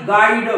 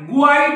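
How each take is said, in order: First: The word starts with a plain g sound. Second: The word starts with a gw sound. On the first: The speaker calls it right. "याला गुआईड न म्हणता गाईड" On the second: The speaker calls it wrong. "गुआईड नाही"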